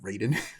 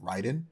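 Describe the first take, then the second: First: The name is said with American pronunciation. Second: The name is said with Japanese pronunciation. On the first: The speaker calls it wrong. "the very like American people who made a video game and saw the name and decided to call him" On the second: The speaker calls it right. "the like correct Japanese pronunciation of that name"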